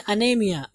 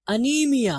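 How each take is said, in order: First: अनेमिया with an ay sound in the middle; common mispronunciation. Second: अनीमिया with a long ee in the middle; correct pronunciation. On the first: Teacher quoting how we misread it, ay-sound अनेमिया. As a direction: say अनेमिया, NAY instead of NEE. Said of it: "हम लोग इसको क्या पढ़ते हैं". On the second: Teacher showing students the right word, careful long-ee अनीमिया. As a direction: say अनीमिया, stretching the NEE. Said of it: "ये अनेमिया नहीं है बल्कि अनीमिया". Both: Shown as a demonstration.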